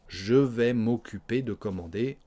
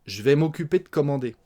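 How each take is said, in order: First: "je" fully sounded, unhurried; full form of je. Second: Quick "j'vais", the vowel of "je" dropped; swallowed E of je. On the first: Teacher showing the uncontracted form, "Je" clearly voiced. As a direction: pronounce the E in "Je vais". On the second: Teacher modelling spoken French, brisk "j'vais" for "je vais". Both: Shown as a demonstration. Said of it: "On mange le E de je".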